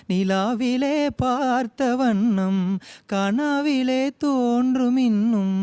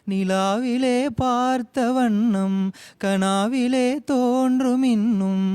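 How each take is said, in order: Both takes have the same delivery.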